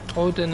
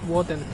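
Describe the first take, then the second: First: The name begins with a vowel sound. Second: The name begins with a w sound. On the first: This is the English way of saying it. "Odin is the English pronunciation" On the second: This is the Icelandic way of saying it. "That's how they pronounce in Iceland"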